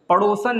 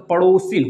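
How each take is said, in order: First: The last syllable has the vowel 'a'. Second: The last syllable has the vowel 'i'. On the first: The speaker calls it wrong. "पड़ोसन नहीं होता दोस्तों" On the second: The speaker calls it right. "पड़ोसिन होता है"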